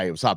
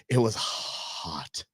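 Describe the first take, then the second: First: Said in the usual way. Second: Drawn out slowly and softly, wilting in the heat; slow wilting drawl. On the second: Acted. Host to listeners about the weekend heat, slow, soft and wilting. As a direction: sag through it like the heat is crushing you. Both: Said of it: "Oh, yeah, yeah".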